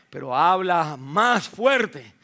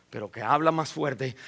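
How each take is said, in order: First: "más fuerte" said slowly and louder, each word weighted; slow emphatic repeat. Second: Said in the usual way. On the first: Shown as a demonstration. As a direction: lean on "más fuerte", drawn out. ("más fuerte" lento y enfático)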